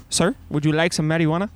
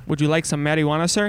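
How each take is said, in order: First: A fast, dead-straight repeat of the offer; deadpan. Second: Said in the usual way. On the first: Retold or imitated. Vendor repeating his marijuana offer to the dad, deadpan. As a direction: say it stone-faced, as if to the camera. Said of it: "He goes deadpan right into the camera". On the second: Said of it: "the guy looks back and goes".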